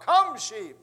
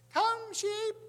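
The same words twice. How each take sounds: First: Loud, raised holler mimicking a pastor. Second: Put-on very high, loud little-girl squeak; little squeaky voice. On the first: Father mimicking the pastor's voice to the sheep, hollered. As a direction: holler it with all your muster. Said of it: "he hollered out". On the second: Little girl calling the sheep from the porch, squeaky. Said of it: "this little girl with all her little squeaky voices".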